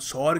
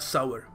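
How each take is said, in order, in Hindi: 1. यह 'sore' जैसा बोला जाता है, एक स्वर के साथ। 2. यह 'sow-er' जैसा बोला जाता है, दो स्वर के साथ। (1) "हम सौर क्या देते हैं" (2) "सही तरीका है इसको कहने का"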